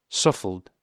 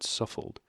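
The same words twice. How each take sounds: First: "suffled" said loudly in a flustered rush, the r lost; mispronounced. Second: "suffled" breathed out softly with no voice behind it, the r lost; mispronounced, quiet. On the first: Husband blundering over "suffered" mid-rant, flustered. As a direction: blurt "suffled" in place of "suffered", still ranting. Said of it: "couldn't pronounce the word". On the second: Narrator quoting the husband's botched word, softly. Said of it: "and at last said". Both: A narrator's reading.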